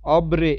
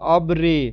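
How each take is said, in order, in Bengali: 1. r-এর পরের স্বরটি 'ee' এর মতো শোনায়। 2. r-এর পরের স্বরটি 'ee' এর মতো শোনায়।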